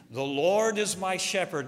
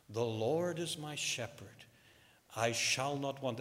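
First: Louder, higher, grand recital without real singing; actor's beautiful rendition. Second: Softer, understated recital with mild pathos; old man's pathos. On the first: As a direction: declaim it like a polished performer. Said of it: "he sung it with a beautiful voice". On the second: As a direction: lightly suggest a humble old singer. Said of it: "in a very raspy voice". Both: Retold or imitated.

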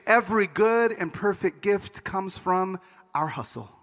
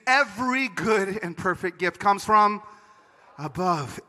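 First: Slow misquote trailing down on "our hustle"; slow verse with "hustle" set apart at the end; misquoted Scripture. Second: Slow verse, "every" hit firmly, "above" set apart; stress on EVERY. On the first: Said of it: "we begin to translate Scripture to say". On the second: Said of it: "what it says is". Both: Acted.

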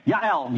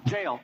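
First: Yael said the Hebrew way, starting with a y sound, ya-EL; Hebrew pronunciation. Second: Said in the usual way. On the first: Shown as a demonstration. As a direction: say Yael as in Hebrew, Ya-el, never Jael. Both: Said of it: "the same thing".

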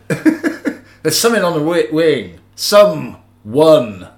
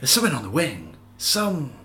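First: Slow, loud, halting impersonation with a big punched last word; amateur Shatner, drawn out and emphatic; William Shatner. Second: Softer, half-hearted impersonation with a halting last word; understated, badly faked actor delivery; William Shatner. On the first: Acted. Podcaster attempts a famous Twilight Zone line, bad Shatner impression. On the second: Podcaster retries the line for his co-host, weak Shatner impression. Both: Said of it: "I can't do the Shatner voice".

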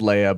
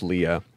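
First: Leia said LAY-uh; name as LAY-uh. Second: Leah said LEE-uh; name as LEE-uh. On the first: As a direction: say Leia with an AY vowel. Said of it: "Her name is spelled Leia, but it's pronounced Leah". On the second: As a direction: say Leah with a long EE. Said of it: "but it's pronounced Leah". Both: Shown as a demonstration.

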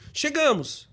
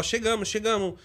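First: A bit louder, not shouting. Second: Said in the usual way. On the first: Shown as a demonstration. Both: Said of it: "falar uma voz um pouquinho mais alta, não gritando".

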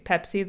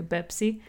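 First: Said in the usual way. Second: "Bepsi", P turned into a B; "Bepsi" with a voiced B at the start; Arabic B for P. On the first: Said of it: "they'll say Bepsi". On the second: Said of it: "how Arabs say Pepsi".

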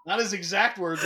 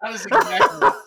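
First: Said in the usual way. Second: Laughing. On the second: Real, not acted. Laughing retelling a friend's line.

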